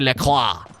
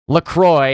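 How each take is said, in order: First: The name is said with a French pronunciation. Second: The name is said with an American pronunciation. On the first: This is how a French Canadian says the name. "I am French Canadian. I say" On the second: This is how the team itself says the name. "that's how they pronounce it because they're very Americanized"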